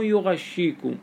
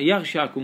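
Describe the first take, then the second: First: يغشيكم said yu-ghash-shee-kum; damma and doubled shin. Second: يغشاكم said yagh-shaa-kum; fatha on the ya. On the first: Teacher naming the contrasting reading, يغشيكم as yughashshikum. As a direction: open on yu, double sh, long 'ee' in يغشيكم. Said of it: "مو يغشيكم". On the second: Teacher contrasting readings, يغشاكم starting with ya. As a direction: open on ya, long 'aa', single sh in يغشاكم. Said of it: "وفتح الياء". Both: Shown as a demonstration.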